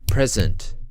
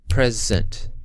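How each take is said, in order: First: The stress is on the first syllable. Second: The stress is on the first syllable.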